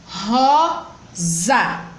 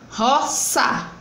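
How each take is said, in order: First: The middle consonant is a voiced z sound. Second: The middle consonant is a voiceless s sound. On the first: The speaker calls it right. "são escritas com S, mas tem som de Z" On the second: The speaker calls it wrong. "não botando o som de Z, mas botando o som do S"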